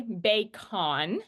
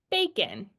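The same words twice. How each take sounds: First: Bacon slowly as "bay-CON"; full-vowel mispronunciation. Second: Bacon as "BAY-kin", falling at the end; natural schwa pronunciation. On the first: Teacher showing what she doesn't say, bacon as "bay-con". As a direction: give bacon's O a full "ah", rising at the end. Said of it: "I don't say bacon". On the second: Teacher showing what she does say, bacon as "BAY-kin". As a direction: reduce bacon's O to a short "ih". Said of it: "that O there sounds like the I sound". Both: Shown as a demonstration.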